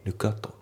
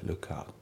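First: "ルックアット" as separate "rukku atto"; katakana-style "ルックアット", every syllable sounded; unlinked pronunciation. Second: "ルックアット" run together as "lukat"; K flows into A in "ルックアット"; linked pronunciation. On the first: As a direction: keep the two words apart in "ルックアット". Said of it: "じゃなくて". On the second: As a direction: model "ルックアット" fused, final T light. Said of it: "リンキングで". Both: Shown as a demonstration.

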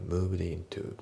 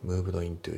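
First: Moved into run together as "muvdeintu"; moved into linked as one word. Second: Moved into as two separate words, "muvudo intu"; moved into said separately; unlinked. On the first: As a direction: glide moved straight into into. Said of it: "moved intoのところがリンキングで". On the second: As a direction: keep moved and into apart. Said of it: "moved intoじゃなくて". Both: Shown as a demonstration.

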